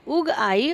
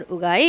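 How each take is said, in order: First: "उग आई" slowly, as two words; split उग आई. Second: "उगाई" as one unbroken word; joined उगाई. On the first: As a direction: leave a juncture between "उग" and "आई". ("उग आई" अलग-अलग शब्दों में) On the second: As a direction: run "उगाई" together with no gap. ("उगाई" एक ही शब्द में) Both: Shown as a demonstration. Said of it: "इन दोनों में भी अंतर है".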